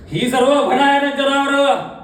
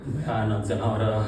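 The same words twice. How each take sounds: First: High, slow, drawn-out stage cry; sustained high dramatic cry; horrified outcry. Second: Low, soft, slow dread; deep, slow stage murmur; hushed horror. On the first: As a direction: wail the horror out to the theatre. Horror bursts out. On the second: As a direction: draw it out quietly, full of dread. Hushed horror before outburst. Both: Acted.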